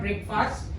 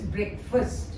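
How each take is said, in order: First: The first syllable sounds like the word break. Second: The first syllable is short, like brek. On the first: The speaker calls it wrong. "break, it's not breakfast" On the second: The speaker calls it right. "it is breakfast"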